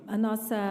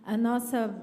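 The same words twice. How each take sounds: The two takes are said the same way.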